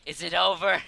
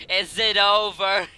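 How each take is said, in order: First: Said in the usual way. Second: "over" drawn out, a little louder; dramatic repeated plea. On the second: Acted. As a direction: stretch "over" in mock desperation.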